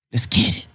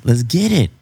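First: A softer whispered echo. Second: Said in the usual way. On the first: Real, not acted. Cohost whispers the hype line back to himself. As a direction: breathe it out as an echo.

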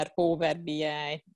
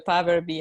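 First: Power B I with a heavy English accent, slow; anglicized Power B I, drawn out; bad English accent. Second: Said in the usual way. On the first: Shown as a demonstration. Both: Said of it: "milyen szép rossz angol akcentussal mondtam".

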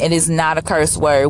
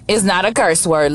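First: "is" pressed firmly in "It is not a curse word"; stress on IS. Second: Said in the usual way. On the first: Shown as a demonstration. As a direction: insist on the word "is". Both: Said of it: "ladies and gentlemen".

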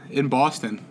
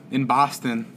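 First: Said in the usual way. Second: "Boston" said with an open "ah", Boston-style; imitated local vowel on "Boston"; Boston accent. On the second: Correcting himself to sound like the locals, Boston accent.

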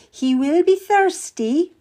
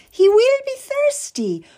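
First: Higher, slow and courteous; queen's order. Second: Much higher, sugary, stress on will; sweet as honey, with a barb; sweetly. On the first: Queen telling Kath to serve the Cardinal, higher and slow. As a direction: lift the word be, a polite royal order. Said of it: "she said". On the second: Queen repeating her order while smiling at the Cardinal, much higher and sweeter. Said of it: "smiled sweetly at him". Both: Acted.

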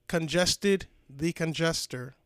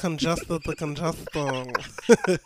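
First: Stuffy nose, slow announcer intro; congested voice. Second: Slow, stuffy-nosed announcer; congested announcer voice. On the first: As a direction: say the show name through a blocked nose. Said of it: "I'm congested". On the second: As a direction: drawl the name through a blocked nose. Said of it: "listen to my new pod voice". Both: Real, not acted.

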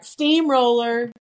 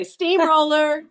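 First: Playful call. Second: High, loud and slow "Steamroller"; wife announcing her roll over her husband, shouted playfully. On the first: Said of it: "And then I go back". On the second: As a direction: call out "Steamroller" like a game cry. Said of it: "I just say". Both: Shown as a demonstration.

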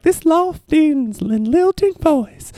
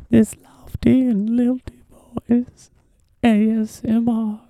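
First: High, slow, floating lilt; slow airy sing-song; lofty lilting voice. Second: High, slow, near-whispered lilting voice; ASMR lilt. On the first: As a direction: drift each word up like a dreamy host. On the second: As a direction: breathe it out like an ASMR video. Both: Shown as a demonstration.

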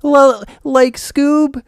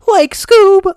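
First: Mocking high-pitched cartoon voice; just push your own voice way up high; Shaggy. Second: Very high, loud cartoon squawk; Shaggy. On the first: Mocking a weak cartoon recasting, thin imitation in a much higher voice. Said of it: "he made his own voice higher". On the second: Showing how the cartoon voice should go, very high and loud. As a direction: push it far higher and louder. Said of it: "he's gotta make it more".

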